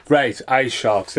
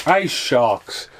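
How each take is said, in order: First: Ice sharks drawn out slowly; slow announcement. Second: Said in the usual way. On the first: Shown as a demonstration. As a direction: stretch "ice sharks" out like a title card.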